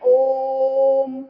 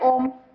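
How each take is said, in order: First: The 'o' vowel is drawn out for a long time. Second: The 'o' vowel is held for a normal length. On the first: "ओ की ध्वनि जो है वो दूर तक जा रही है" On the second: "सीधा लिख दिया"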